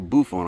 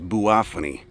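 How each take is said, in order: First: The name is said in a shorter, casual form. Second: The name gets its full Latin pronunciation. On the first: "You can call it Buffon. I kind of like that better" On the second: "The correct way to pronounce it"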